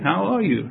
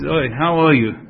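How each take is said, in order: First: It sounds warm and happy to see you. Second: It sounds annoyed and resentful toward you.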